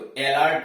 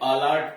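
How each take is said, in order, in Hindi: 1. पहला स्वर 'eh' जैसा सुनाई देता है। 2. पहला स्वर 'uh' जैसा सुनाई देता है। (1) "इसको अलर्ट नहीं" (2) "अलर्ट पढ़ते हैं"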